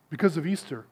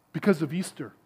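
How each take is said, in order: Both takes have the same delivery.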